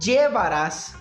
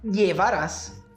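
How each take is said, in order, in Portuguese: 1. A palavra começa com som de j. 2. A palavra começa com som de y. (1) "Com som de uma espécie aí de D J" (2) "com som de I"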